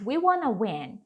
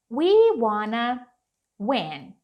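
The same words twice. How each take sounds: First: Said in the usual way. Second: Slow model phrase. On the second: Shown as a demonstration. Teacher models a phrase for English learners, slow demonstration. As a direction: stretch out "We wanna", pause, then "win". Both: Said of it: "pode virar e falar assim".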